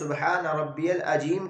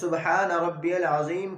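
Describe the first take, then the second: First: The middle consonant of 'azeem' sounds like j. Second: The middle consonant of 'azeem' sounds like z. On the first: Allah is wrongly called mute. The speaker calls it wrong. "उसकी नमाज ख़त्म हो जाती है" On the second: Allah is praised as great. The speaker calls it right. "के बजाय"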